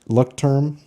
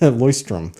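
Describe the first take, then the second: First: The first syllable sounds like 'luck'. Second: The first syllable sounds like 'loysh'. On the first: The speaker calls it wrong. "which is completely wrong" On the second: The speaker calls it right. "it's actually pronounced Leuchtturm"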